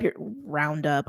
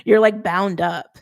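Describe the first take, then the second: First: "round up" said by mistake for "bound up", slower; stumbling over "round up"; slip of the tongue. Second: "bound up" said carefully as the fix, a touch slower; landing on "bound up" correctly; corrected word. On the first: Reader misspeaks to viewers, saying "round up" instead of bound. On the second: Reader corrects herself for viewers, saying "bound up" carefully. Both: Real, not acted. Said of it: "I don't know what that was trying to say there".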